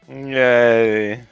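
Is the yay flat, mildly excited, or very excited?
flat. It is said flatly, without excitement.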